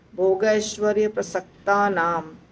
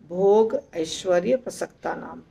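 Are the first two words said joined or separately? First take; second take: joined; separately. First: The first two words are merged into one word. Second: The first two words are said as separate words. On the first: "अगर हम इकट्ठे बोलते हैं जैसा है वैसा ही तो बहुत अच्छा लगेगा सुनने में" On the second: "अलग अलग बोल सकते हैं"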